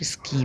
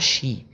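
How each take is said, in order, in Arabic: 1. الكلمة تبدأ بصوت s وصوت k. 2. الكلمة تبدأ بصوت sh. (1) "ما بنطقوش سكي" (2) "بنطقوها شي"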